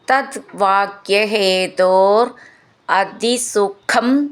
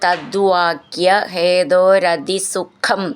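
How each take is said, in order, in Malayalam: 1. വാക്കുകൾ വേർതിരിച്ചാണ് ചൊല്ലുന്നത്. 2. വാക്കുകൾ ചേർത്താണ് ചൊല്ലുന്നത്.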